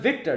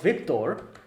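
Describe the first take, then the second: First: The name ends in a plain 'ter' sound. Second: The name ends with a clear 'Thor' sound. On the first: It is an ordinary human name. The speaker calls it right. "I'm Victor" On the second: It names a god of victory and thunder. The speaker calls it wrong. "not Victor. ... I am not Thor, a god"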